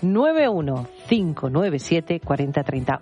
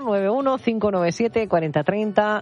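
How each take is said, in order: First: The number is said slowly. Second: The number is said fast.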